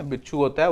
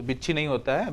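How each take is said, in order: First: बिच्छू with a final "oo"; बिच्छू said with "oo" in place of "ee"; correct standard form. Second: बिच्छी with a final "ee"; बिच्छी said with "ee" in place of "oo"; wrong local form. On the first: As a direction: give the standard बिच्छू, ending firmly in "oo". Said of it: "तो बिच्छी नहीं होता है". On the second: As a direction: cite the village form बिच्छी, ending in "ee". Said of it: "गांव के लोग तो बिच्छी बोलते हैं". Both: Shown as a demonstration.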